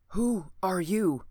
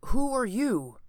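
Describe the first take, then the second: First: Slow, wary stranger's voice; a hidden man asking slowly; voice from the corner. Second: Higher, sharp questioning voice; startled demand. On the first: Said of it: "asked a voice from one corner". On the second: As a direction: demand it, pistol raised. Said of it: "the voice replied". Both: A narrator's reading.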